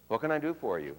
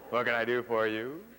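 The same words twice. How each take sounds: First: The pitch falls normally at the end. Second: The pitch goes down and then back up. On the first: "Normal pitch drop" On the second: "the one that goes down and then up"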